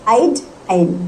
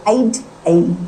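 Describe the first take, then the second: The two takes are said the same way.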